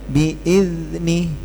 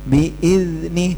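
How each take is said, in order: No difference in how they are said.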